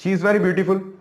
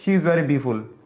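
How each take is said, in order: First: The word beautiful is said in full. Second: The word beautiful is shortened to b-ful.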